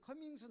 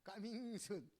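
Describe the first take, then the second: First: The first vowel of coming sounds like uh. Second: The first vowel of coming sounds like ah. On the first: "이 사람들은 커밍순 안 해요" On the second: "발음이 동남아시아는 까밍순"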